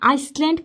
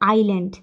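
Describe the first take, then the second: First: The word is said with an s sound. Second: The word is said without an s sound. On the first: The speaker calls it wrong. "আইসল্যান্ড কোনোদিন বলিয়েন না" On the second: The speaker calls it right. "এটা হচ্ছে আইল্যান্ড"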